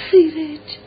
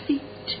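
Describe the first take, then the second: First: Put-on louder, higher cry of the child's name; emotional call. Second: Barely voiced, whispered calling of a name; hushed name. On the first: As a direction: call out to your long-missed son. Mother calls her son louder. (صدا زدن بلند و پراحساس) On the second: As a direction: whisper it as you approach your child. Mother approaches son with trembling steps. (نجواگونه و بسیار آهسته) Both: A narrator's reading.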